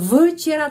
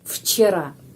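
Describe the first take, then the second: First: The first sound is a voiced V. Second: The first sound is a voiceless F. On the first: The speaker calls it wrong. "Bukan včera" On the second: The speaker calls it right. "tetapi F"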